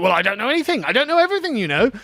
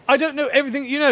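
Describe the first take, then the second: First: Mocking Adam. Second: Fast, higher mocking echo of his line; mocking repeat. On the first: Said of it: "And then you're like". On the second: Commentator mocking Adam's excuse, fast sneering echo. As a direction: throw his words back at him, sneering. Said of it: "Oh, look at that".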